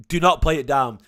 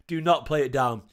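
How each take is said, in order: First: Louder, punching NOT in "Do not play it down"; "Do not" stressed hard, falling at the end; emphatic insistence. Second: "Do not play it down" repeated at normal level, stress still on "not"; calm echo of the demand, "not" lightly stressed. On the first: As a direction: hammer the word "not" as a firm order. Insisting the win was hard. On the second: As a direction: let the repeat settle back to normal volume. Repeat of the insistence. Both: Real, not acted.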